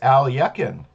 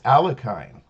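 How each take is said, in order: First: The name is said unlike its English spelling. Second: The name is said as English spelling suggests. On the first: The speaker calls it right. "but it is Alekhine" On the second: The speaker calls it wrong. "I was mispronouncing it as Alekhine"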